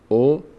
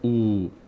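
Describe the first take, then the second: First: The vowel is short and clipped. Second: The vowel is drawn out long. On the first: The speaker calls it right. "او و" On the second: The speaker calls it wrong. "نه او، نکشیم"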